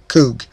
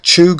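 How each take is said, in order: First: The word begins with a 'k' sound. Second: The word begins with a 'ch' sound. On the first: "I think it's pronounced K-H-O-O-G" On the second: "It could be spelled C-H-U-G"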